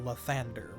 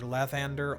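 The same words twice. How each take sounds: First: The stress is on the second syllable. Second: The stress is on the first syllable. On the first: "or second syllable" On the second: "with the accent like on the first"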